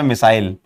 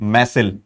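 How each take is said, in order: First: It is said like the word missile. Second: It is said with a short 'mesil' sound. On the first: "मेरे मुंह से मिसाइल निकलता है" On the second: "मैसिल बोलते हैं"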